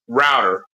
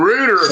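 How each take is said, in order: First: The first vowel sounds like 'ow'. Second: The first vowel sounds like 'oo'. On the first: "Router is R O U T" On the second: "rooter would be R O O"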